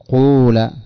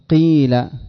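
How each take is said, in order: First: The first vowel is a full u sound. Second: The first vowel is a full i sound. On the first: "لكن لا تأتي بها كاملة فتقول قول" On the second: "ولا تأتي بالكسرة كاملة فتقول قيل"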